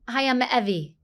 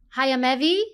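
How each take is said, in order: First: The voice falls at the end. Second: The voice rises at the end.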